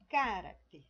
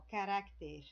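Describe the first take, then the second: First: The stress is on the first syllable. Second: The stress is on the second syllable. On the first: "Se fosse no ca" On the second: "como é aqui ó, no ra"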